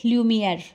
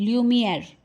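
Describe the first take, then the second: The two takes are said the same way.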